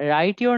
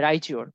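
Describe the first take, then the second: First: The t and y stay separate sounds. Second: The t and y merge into a ch sound. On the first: "রাইট ইউর না হয়ে" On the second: "এটার উচ্চারণটা হয়ে যাবে চ"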